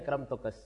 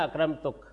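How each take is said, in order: First: An added s sound follows the final k. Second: The word ends plainly on the k sound. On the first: "ان کے ہاں ایک قاف خطاب کے بعد سین کسی آواز نکل جاتی" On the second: "حجازی لہجے میں تو بس بات یہاں ختم ہو جائے گی"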